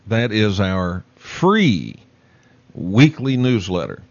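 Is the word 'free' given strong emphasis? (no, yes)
yes. The word free carries strong emphasis.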